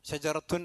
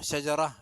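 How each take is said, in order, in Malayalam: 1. ഈ വാക്ക് t ശബ്ദത്തോടും നാസിക അവസാനത്തോടും കൂടിയാണ് അവസാനിക്കുന്നത്. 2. ഈ വാക്ക് t ശബ്ദമില്ലാതെയാണ് അവസാനിക്കുന്നത്. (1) "നിർത്താതെ ഉച്ചരിക്കുകയാണെങ്കിൽ" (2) "ഷജറ എന്ന് തന്നെ പറയാം"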